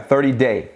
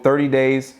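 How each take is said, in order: First: "thirty day" said with no s at the end; corrected code. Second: Code said as "thirty days" with a plural s; "thirty days", ending on a clear s; wrong code. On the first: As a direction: fix it to "thirty day", singular and clean. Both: Real, not acted. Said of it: "Thirty day, not days".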